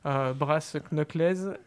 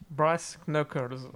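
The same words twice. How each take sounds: First: It is said with a heavy French accent. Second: It is said with a more English-like accent. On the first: The speaker calls it wrong. "vous excuserez mon anglais" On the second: The speaker calls it right. "Beaucoup mieux"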